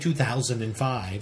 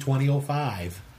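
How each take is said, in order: First: The year is read as two thousand five. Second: The year is read as twenty oh five. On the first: The speaker calls it wrong. "So don't say 2005" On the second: The speaker calls it right. "Say 2005"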